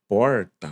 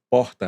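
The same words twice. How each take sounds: First: It is said in a Mato Grosso do Sul accent. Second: It is said in a João Pessoa accent. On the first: This is how the child learned it at school. "Ela já estava aprendendo o sotaque lá do Mato Grosso do Sul" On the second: This is how the parents say it. "a gente vindo de João Pessoa"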